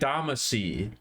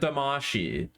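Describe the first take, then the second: First: The last syllable sounds like 'see'. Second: The last syllable sounds like 'shee'. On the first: This is the name as changed for America. The speaker calls it wrong. "they changed the last syllable so that it reads like Damacy" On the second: This is the original Japanese name. The speaker calls it right. "instead of Damashi"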